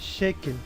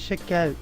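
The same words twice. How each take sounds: First: The E vowels are closed. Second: The E vowels are open. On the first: The speaker calls it right. "é Shekel" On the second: The speaker calls it wrong. "não é Shekel"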